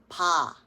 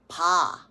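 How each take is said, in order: No difference in how they are said.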